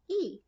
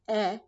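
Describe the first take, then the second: First: The vowel is a long 'ee' sound. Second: The vowel is a short 'eh' sound. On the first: This is the name of the letter. "or we can say its name" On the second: This is the sound the letter makes. "we can either say its sound"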